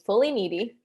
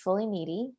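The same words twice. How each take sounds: First: It is said with an almost British accent. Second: It is said in her normal American accent.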